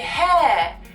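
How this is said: The word is said with a non-American vowel. The speaker calls it wrong.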